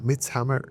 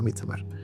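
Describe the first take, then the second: First: The title is pronounced with English sounds. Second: The title is pronounced with Spanish sounds. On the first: This is the film's real name. "realmente se llama Midsummer" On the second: This is the speaker's preferred way. "me gusta pronunciarlo en español"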